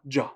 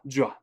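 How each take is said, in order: First: The two syllables merge into one sound, ja. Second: The same.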